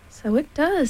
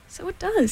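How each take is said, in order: First: Lightly voiced bear, higher pitch; a mildly surprised, lifted storybook voice; Pooh. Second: Small, high-pitched storybook creature; Piglet. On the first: Pooh seeing the balloon fit, lightly voiced bear. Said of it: "said Pooh". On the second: Piglet agreeing with Pooh, small high voice. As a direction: echo it higher, in a little voice. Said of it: "said Piglet". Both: A narrator's reading.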